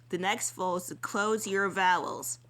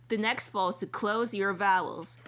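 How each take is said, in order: Both takes have the same delivery.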